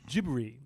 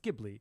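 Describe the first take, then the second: First: The name is said the Japanese way, like 'gibbery'. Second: The name is said the Italian way, with L. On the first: "because it's Japanese, it's gibber it's gibbery" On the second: "when an Italian says it's it's Ghibli"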